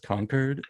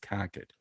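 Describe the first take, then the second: First: It is said with an outsider's pronunciation. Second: It is said with the local Boston pronunciation. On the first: The speaker calls it wrong. "I'm like, yes, Concord" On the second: The speaker calls it right. "What you want is Concord"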